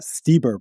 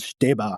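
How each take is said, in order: First: The name is pronounced the American English way. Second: The name is pronounced the German way. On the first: "probably in, in American English" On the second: "I think I'm saying it like a German would"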